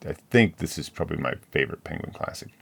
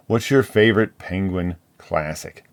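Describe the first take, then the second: First: Said in the usual way. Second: "your" leaned on in a louder read question. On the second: Shown as a demonstration. Host reads the book tag question, stressing "your". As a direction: stress "your" in "What's your favorite penguin classic?".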